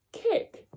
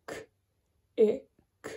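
First: Said in the usual way. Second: "K, I, k" as three separate short sounds; sounded out. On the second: Shown as a demonstration. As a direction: split kick into bare K, short I, bare k. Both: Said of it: "start of the word and the end".

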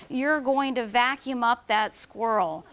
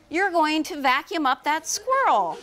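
First: Said in the usual way. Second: Urgent warning. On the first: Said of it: "She said the words". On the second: A narrator's reading. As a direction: warn the neighbor through the window. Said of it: "she shouted".

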